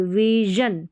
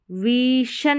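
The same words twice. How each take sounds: First: विजन with long vee and voiced zhun. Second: विशन with long ee and unvoiced shun; stretched vee, hushing sh in विशन; wrong sh in विशन. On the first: Teacher modelling the right reading, विजन with zh. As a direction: stretch विजन, buzzing the zh. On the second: Teacher showing what not to say, विशन with sh. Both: Shown as a demonstration. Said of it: "विशन नहीं बोलेंगे".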